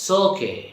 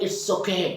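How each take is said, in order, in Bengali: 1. শুরুর স্বরধ্বনিটি বাদ পড়ে এবং শব্দগুলো মিশে যায়। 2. প্রতিটি শব্দ পুরোপুরি ও আলাদা করে বলা হয়। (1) "আমরা কি বলবো? সোকে" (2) "আমরা ইটস ওকে বলবো না"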